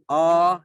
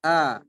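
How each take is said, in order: First: The vowel sounds heavy, dark and rounded. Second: The vowel sounds light, thin and open. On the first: The speaker calls it wrong. "ini terlalu tebal ya" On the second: The speaker calls it right. "dibaca dengan tipis"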